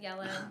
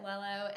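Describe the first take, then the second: First: The word begins with a Y sound. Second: The word begins with an L sound. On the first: The speaker calls it right. "It's actually yellow" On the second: The speaker calls it wrong. "She called it Lello"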